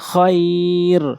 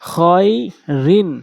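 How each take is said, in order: First: The word stops short on the final consonant. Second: The word ends with a nasal 'in' syllable.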